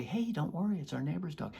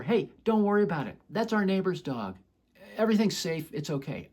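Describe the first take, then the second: First: Calm reassurance. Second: Loud call from across the park; yelling over. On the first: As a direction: reassure her with an arm around her. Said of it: "She can feel my authentic calmness". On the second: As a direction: shout the reassurance from far away. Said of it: "If I just yell over". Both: Retold or imitated.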